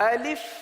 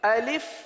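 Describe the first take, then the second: First: The second vowel is a short i sound. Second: The second vowel is a short i sound.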